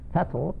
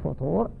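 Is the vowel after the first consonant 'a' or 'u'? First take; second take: a; u. First: The first vowel is an open 'a' sound. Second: The first vowel is a rounded 'u' sound. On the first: The morning breakfast. "أما غير الصائم فنقول فيه فطور" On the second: The meal that breaks a fast at sunset. "فطور بضم الفاء هو فطور الصيام"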